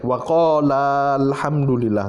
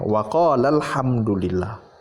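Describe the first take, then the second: First: The final vowel of waqala is held long. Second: The final vowel of waqala is kept short. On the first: The speaker calls it wrong. "nggak boleh" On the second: The speaker calls it right. "Tidak dibaca panjang"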